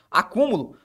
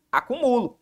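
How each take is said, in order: First: Acúmulo with stress on the third-last syllable, mu. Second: Acumulo with stress on the second-last syllable, MU. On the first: Teacher contrasting word stress for students, reading acúmulo, stress on Ú. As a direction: say acúmulo as a proparoxytone, pressing the Ú. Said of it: "fica acumulo". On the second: Teacher contrasting word stress, reading acumulo as the verb, stress on MU. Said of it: "se por acaso eu retirasse a figura do acento". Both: Shown as a demonstration.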